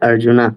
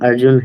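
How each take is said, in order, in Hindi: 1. नाम के अंत में 'a' स्वर है। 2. नाम 'n' की ध्वनि पर खत्म होता है। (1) "जैसे यहाँ पे हमने पढ़ा ना अर्जुना" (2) "एक्चुअल नाम अर्जुन है"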